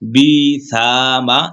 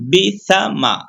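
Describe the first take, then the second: First: The syllables are read slowly with lengthened vowels. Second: The syllables are read quickly with short vowels. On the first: The speaker calls it wrong. "এরকম কিন্তু পড়া যাবে না তাহলে মদের হরফ হয়ে যাবে" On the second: The speaker calls it right. "তাড়াতাড়ি পড়তে হবে"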